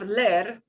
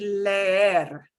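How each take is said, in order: First: The e vowel is said short, once. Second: The e vowel is drawn out, said twice. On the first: The speaker calls it wrong. "instead of ler" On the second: The speaker calls it right. "I just drag the sound out"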